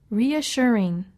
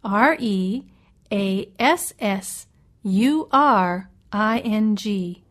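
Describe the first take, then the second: First: Said in the usual way. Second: Slow, each letter separate; spelled letter by letter. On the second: Shown as a demonstration. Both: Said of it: "Let me spell reassuring for you".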